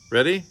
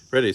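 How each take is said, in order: First: "Ready?" high and loud, rising; questioning. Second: "Ready" short with a falling end; answering. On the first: Parent starting the magic trick countdown, questioning "Ready?". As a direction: call out "Ready?" with a big lift at the end. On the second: Child answering the parent's countdown, answering "Ready". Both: A narrator's reading.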